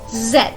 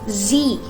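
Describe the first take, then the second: First: The letter name is said the British way. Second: The letter name is said the American way. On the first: "But here in British English, it's pronounced as Z" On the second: "In American English, this letter is pronounced as Z. Z E E"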